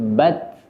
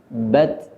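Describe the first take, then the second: First: A light natural puff of breath follows the t. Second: A light natural puff of breath follows the t.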